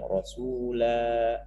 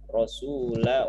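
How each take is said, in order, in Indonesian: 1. Vokal akhirnya dibaca panjang. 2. Vokal akhirnya pendek, langsung tersambung ke kata berikutnya. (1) "maka alifnya berfungsi, jadi bacanya panjang" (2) "Jadi lanya enggak e, dibaca pan, panjang"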